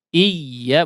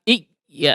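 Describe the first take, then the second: First: The doubled y is pressed gently and smoothly. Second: The doubled y is pressed hard and clipped. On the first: The speaker calls it right. "Menekan tapi secara lunak" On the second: The speaker calls it wrong. "bukan iya, ah, seperti mati ya"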